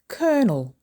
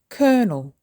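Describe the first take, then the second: First: The word is said with two syllables. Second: The same.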